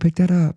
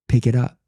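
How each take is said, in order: First: It is said in a gentle, sweet tone. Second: It is said in a stern, firm tone.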